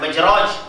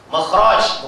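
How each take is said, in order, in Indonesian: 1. Konsonan tengah itu bunyi j. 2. Konsonan tengah itu bunyi kh tekak. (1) "bukan majraj" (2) "Makhraj itu kha bukan jim"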